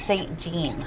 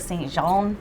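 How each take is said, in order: First: The name is said with an English pronunciation. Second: The name is said with a French accent. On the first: The speaker calls it right. "It's named after a woman, so it's Saint Jean" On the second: The speaker calls it wrong. "pronounce this with their best French accent"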